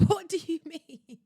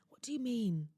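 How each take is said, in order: First: Louder, higher, incredulous cry; what do you mean, higher and louder, half laughing; indignant outburst. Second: Said in the usual way. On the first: Acted. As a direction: let the outrage burst out with a laugh.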